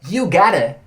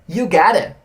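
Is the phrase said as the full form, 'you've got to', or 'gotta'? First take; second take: gotta; gotta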